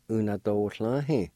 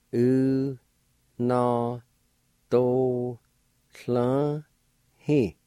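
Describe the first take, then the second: First: Said in the usual way. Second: Very slow, long held syllables; teacher sounding a word out slowly. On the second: Shown as a demonstration. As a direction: stretch each syllable out with long pauses between. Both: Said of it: "I'll pronounce these words".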